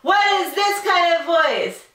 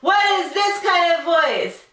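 First: It is said in a scream. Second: It is said in a scream.

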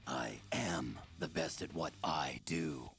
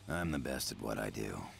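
First: It is said with more emotional feeling. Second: It is said flatly, with little feeling.

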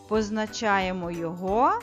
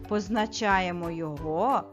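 Both takes have the same delivery.

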